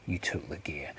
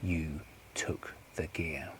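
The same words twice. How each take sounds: First: Low, softened statement; hushed, knowing accusation; quiet accusation. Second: Very slow, hushed, word by word; drawn-out, quiet threat; slow menacing accusation. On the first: Accusation, first take before repeat. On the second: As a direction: space out each word, low in volume. Accusation repeated slowly for menace. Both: Acted.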